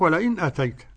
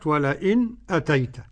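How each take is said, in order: First: The glottal stop is pronounced plainly without pause. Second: A brief silent pause comes before the glottal stop. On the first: This is how the remaining readers recite it. "التحقيق" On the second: This is a second reading tradition's way. "السكت بالنسبة لخلف حمزة"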